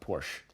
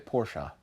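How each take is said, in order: First: The name ends after the first syllable. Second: The name ends with a second syllable. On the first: The speaker calls it wrong. "not Porsche" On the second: The speaker calls it right. "I also say Porsche"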